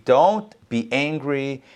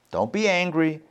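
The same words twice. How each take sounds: First: "don't be angry" said slowly, each word leaned on; slow, emphatic don't. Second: Said in the usual way. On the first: Shown as a demonstration. The rabbi repeats God's words to Cain, slowly and firmly. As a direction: drag out "don't be angry" as a firm warning.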